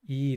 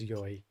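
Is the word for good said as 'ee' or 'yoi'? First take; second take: ee; yoi. First: The word is a single long 'ee' sound. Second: The word is two syllables, 'yo' and 'i'. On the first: This is the normal everyday form. "normally people just say it as e" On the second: This is an old-fashioned way of speaking. "it's kind of old fashioned to say it as yoi"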